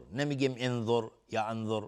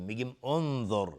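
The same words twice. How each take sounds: First: انظر begun with e or a, as "enzor"; the wrong way: start انظر with an e vowel; wrong opening vowel. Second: انظر begun with u, as "onzor"; starting with u. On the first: Teacher showing students the mistaken pronunciation. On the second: Teacher giving the correct opening vowel to students. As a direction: open انظر with a short u vowel. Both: Shown as a demonstration.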